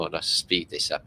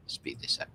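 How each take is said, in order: First: Said in the usual way. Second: Whispered. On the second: Real, not acted. Repeats the line, then whispers it.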